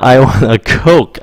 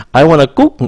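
First: "Coke" with a strong aspirated k and long oh vowel, slowly; slow, careful "Coke" with a breathy k; correct Coke. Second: "I want a Coke." with Coke said like Vietnamese "cúc", short oo vowel; the mistaken "kuk" for Coke; wrong "cúc" vowel. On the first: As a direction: spit out the k in "Coke", kohk not cúc. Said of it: "Âm khạc nó ra". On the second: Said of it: "Đừng có cúc". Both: Shown as a demonstration.

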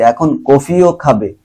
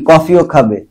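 First: Slow, leaning hard on কফিও, with the ও drawn out; slow, press the emphatic ও in কফিও; stress on কফিও. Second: Said in the usual way. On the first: Shown as a demonstration. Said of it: "তো জোর বোঝাচ্ছে". (কফিও শব্দে জোর, ধীরে) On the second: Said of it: "মানে কি?".

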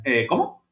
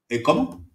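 First: Mock-baffled stalling question; buy time with a rising como. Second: Mock-baffled stalling question; puzzled eh como. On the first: Podcaster miming a dodge of an awkward question. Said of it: "y entonces dices". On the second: Podcaster imitating the documentary's final face, playing dumb. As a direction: play dumb with a drawn rising como. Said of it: "con esta expresión".

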